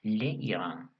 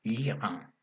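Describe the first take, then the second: First: "le Irán" with le and Irán kept apart, vowel clash left in; wrong form le Irán. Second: "l'Iran" as one word, le reduced to a bare l joined to Iran; elided l'Iran. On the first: Teacher showing students the clumsy wrong form, le and Irán split. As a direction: say "le Irán" as two separate words, the awkward way. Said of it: "nosotros dijéramos le Irán". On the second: Teacher showing students the correct form, l joined to Iran. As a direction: glide "l'Iran" together with no vowel after the l. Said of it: "se pronuncia l'Iran". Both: Shown as a demonstration.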